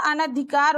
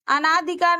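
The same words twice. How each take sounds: First: अनधिकार with a short a, an-dhikaar; correct form. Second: अनाधिकार with a long aa after the first a; wrong form. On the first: Teacher gives students the correct अनधिकार. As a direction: say अनधिकार with no long aa. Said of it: "होता है". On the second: Teacher shows students the wrong अनाधिकार. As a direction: say अनाधिकार as the wrong ana-dhikaar. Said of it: "नहीं होता". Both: Shown as a demonstration.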